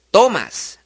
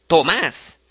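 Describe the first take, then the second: First: Tomas stressed on TO; stress on first syllable. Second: Tomás stressed on the final MÁS; stress on last syllable. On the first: Teacher contrasting the grave form, TO-mas. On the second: Teacher contrasting the aguda form, to-MÁS. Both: Shown as a demonstration.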